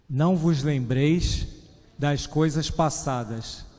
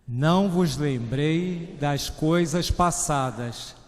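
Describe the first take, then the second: First: It is read with ordinary force. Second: It is read loudly and forcefully.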